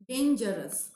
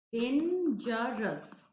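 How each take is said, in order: First: Said in the usual way. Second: Dangerous very slowly, dan-ger-ous; syllable by syllable. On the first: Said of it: "dangerous is actually trisyllabic". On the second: Shown as a demonstration. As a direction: stretch "Dangerous" into three beats. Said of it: "This is trisyllabic".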